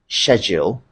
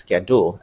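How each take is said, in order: First: It is said with a British pronunciation. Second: It is said with a Nigerian pronunciation. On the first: "the right pronunciation in British English" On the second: "here in Nigeria, we pronounce them as schedule"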